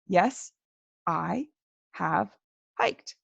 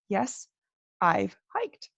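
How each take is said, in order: First: Each word is said separately and fully. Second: 'I have' is squeezed into one syllable. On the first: "they are not going to say all of those words quite as carefully" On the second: "we like to smush everything together"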